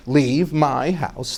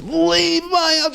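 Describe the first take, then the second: First: Said in the usual way. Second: Much higher, slow, mock-solemn "Leave my house"; husband intoning the divorce words to his wife; divorce formula. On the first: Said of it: "the way you would get divorced was you would say". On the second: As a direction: pronounce "Leave my house" like a ritual verdict. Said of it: "He goes".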